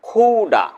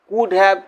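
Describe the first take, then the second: First: The words blend into one short reduced word. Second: Both words are said fully and separately. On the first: "assimilation" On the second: "পূর্ণরূপ"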